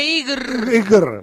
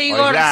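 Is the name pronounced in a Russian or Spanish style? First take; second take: Russian; Spanish. First: The name is said in a Russian-like way. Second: The name is said with Spanish-style vowels. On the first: The speaker calls it right. "se dice Igr" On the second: The speaker calls it wrong. "no se dice Igor"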